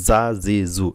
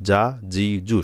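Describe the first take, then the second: First: জা জি জু said as za zi zu; wrong soft jim. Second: জা জি জু with a firm English j; hard jim. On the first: Teacher showing what to avoid, z-like জা জি জু. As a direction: buzz জা জি জু with a z instead of a hard j. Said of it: "এরকম হবে না". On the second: Teacher modelling the letter jim, hard j. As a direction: say জা জি জু with a hard, stopped j. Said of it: "শক্ত হবে, জিমটা শক্ত হবে". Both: Shown as a demonstration.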